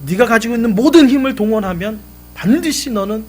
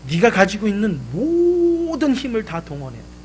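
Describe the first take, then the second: First: Louder and higher, 모든 hit hard; the father raises his voice to drive the point home; emphatic father. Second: 모든 leaned on in a father's advising voice; a light press on 모든 as the father explains; stress on 모든. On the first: Father urging his son to use all his strength, emphatic. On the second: Father telling his son how to move the rock, 모든 stressed. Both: Retold or imitated.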